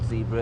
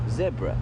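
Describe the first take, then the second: First: It is said the American way. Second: It is said the local, non-American way. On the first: The speaker calls it wrong. "when we hear Americans say zebra ... it's not zebra" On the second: The speaker calls it right. "it's zebra ... The correct pronunciation is zebra"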